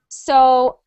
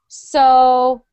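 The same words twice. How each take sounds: First: The pitch swoops through the word. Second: The pitch stays low on the word. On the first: "or we want to make it swoop" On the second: "We want to keep it down"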